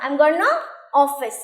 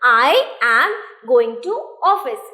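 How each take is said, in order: First: Going to is squeezed into one word, gonna. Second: Going to is said as two full words. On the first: It sounds fluent and casual in speech. "गोइंग टू की जगह हम क्या करते हैं? ... गोना" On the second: It is the grammatical form. "I am गोइंग टू"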